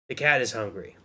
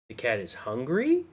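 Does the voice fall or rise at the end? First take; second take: fall; rise. First: The voice falls at the end. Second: The voice rises at the end.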